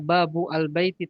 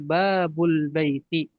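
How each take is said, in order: First: The article is said separately, with its vowel. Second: The article is linked, its vowel dropped. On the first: The speaker calls it wrong. "tidak dibaca babu al-baiti" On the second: The speaker calls it right. "tapi babul baiti"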